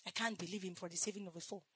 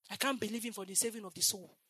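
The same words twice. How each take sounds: First: Much softer, faster echo of the line; hushed repeat. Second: Said in the usual way. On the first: Acted. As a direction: drop it to a quick near-whisper. Repeated line, dropped low.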